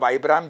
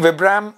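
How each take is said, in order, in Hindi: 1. पहला स्वर लंबा है, 'bite' जैसा। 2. पहला स्वर छोटा है, 'bit' जैसा। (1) "जैसे भी आप इसको प्रोनाउंस करते हैं" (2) "जैसे भी आप इसको प्रोनाउंस करते हैं"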